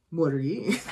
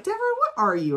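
First: "what are you" at normal pitch, rising at the end; question thrown back. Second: High-pitched "what are you", falling at the end; acted questioning. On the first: Retold or imitated. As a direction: turn the question back on the asker. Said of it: "he answered a question with a question". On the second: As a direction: demand an answer, pitched way up. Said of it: "She's like".

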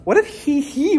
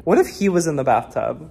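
First: High falsetto squeal on "he, he", then usual voice. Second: Said in the usual way. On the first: Pretend. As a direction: pop star "he, he" slipped into the question. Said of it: "Is this the ghost of [name]".

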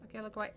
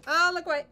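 First: Said in the usual way. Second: Loud high yelp of fright; scared gamer shouting at the screen; frightened cry. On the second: Real, not acted. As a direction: cry out to look away. Scared by game.

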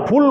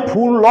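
First: ফুল said as one closed syllable, ful with no vowel after the l; ফুল as spoken Bengali, no trailing vowel; correct pronunciation. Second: ফুল ল read as two parts, ful then a separate lo; wrong spelled-out reading. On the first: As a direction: say ফুল short and clean, ending on the l. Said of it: "বলি না, ফুল বলি". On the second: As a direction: say ফুল ল spelling the final ল out as its own syllable. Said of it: "উচ্চারণটা কি আমি ফুল বলি?". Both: Shown as a demonstration.

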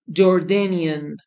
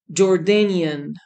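No difference in how they are said.

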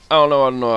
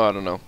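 First: Louder, rushed fretting; louder nervous babble; flustered. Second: Said in the usual way. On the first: Real, not acted. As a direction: fret out loud, rattled. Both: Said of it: "flustered repetition".

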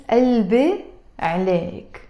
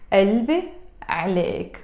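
The two takes are said the same way.

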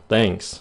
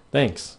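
First: Said in the usual way. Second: Another tune for thanks. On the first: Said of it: "Giọng thường nhất là thanks". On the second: Shown as a demonstration. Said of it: "Cái chữ thanks nó có vài giọng".

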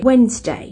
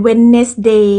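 First: "Wednesday" in two syllables, WENZ-day; "Wednesday" stressed first and falling; English Wednesday. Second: "Wednesday" in three parts, wen-nes-DAY; "Wednesday" slowly, stretched final DAY; Thai-style Wednesday. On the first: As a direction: say "Wednesday" with the middle dropped. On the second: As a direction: say "Wednesday" with the middle syllable sounded. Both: Shown as a demonstration. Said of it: "ก็บ่แม่น Wednesday".

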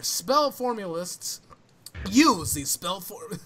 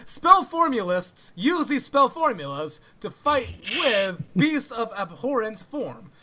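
First: Slow, mildly hammed-up flamboyant read. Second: Higher, louder, slow flamboyant read. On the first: First go at a tongue-twisting summary, mock flamboyant. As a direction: stretch the words out with mock grandeur. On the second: Pretend. Restarting the summary after a stumble, fully hammed-up flamboyant. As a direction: declaim it with big theatrical swoops. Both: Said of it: "flamboyant voice".

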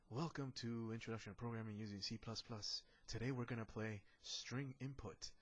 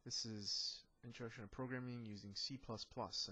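First: Smooth radio announcer intro; radio host voice. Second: Said in the usual way. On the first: Pretend. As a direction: open it like a morning radio show. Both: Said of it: "I sound like a radio host".

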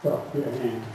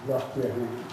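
The two takes are said the same way.

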